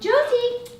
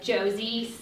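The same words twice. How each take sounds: First: The name is said in a cheerful, upbeat tone. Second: The name is said in a stern, scolding tone. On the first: Something good is coming for the dog. The speaker calls it right. "kind of switching your tone" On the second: The dog is being told off. The speaker calls it wrong. "You would naturally probably be like"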